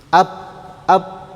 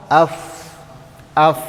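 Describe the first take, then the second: First: "Ap" cut shut on closed lips, no air flowing; closed P sound. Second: "af" ending in an F with air flowing out. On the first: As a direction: stop the air dead at the end of "Ap". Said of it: "akhirnya jadi tertutup". ("Ap" dengan bibir tertutup, udara tidak mengalir) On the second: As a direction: let the breath run on through the end of "af". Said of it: "udara mengalir". ("af" dengan udara mengalir) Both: Shown as a demonstration.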